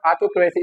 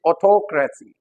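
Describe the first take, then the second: First: "autocracy" as au-to-KRAY-see; full KRAY vowel in "autocracy"; wrong pronunciation. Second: "autocracy" as aw-TOK-ruh-see; stressed TOK in "autocracy"; correct pronunciation. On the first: Teacher showing the common error, mispronounced. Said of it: "it is not autocracy". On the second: Teacher correcting the error for learners, properly stressed. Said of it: "it is autocracy". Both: Shown as a demonstration.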